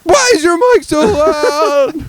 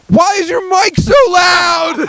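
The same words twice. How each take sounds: First: Put-on high, slow childish yell; high kid yell. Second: Put-on very high, slow child's scream; kid screaming. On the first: Dad repeating son's scream at the stranger, high mock yell. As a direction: yell it like a small boy. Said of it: "He screams it". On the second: Son screaming at loud stranger in game, high slow scream. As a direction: scream it over the other guy. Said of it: "Fritz goes".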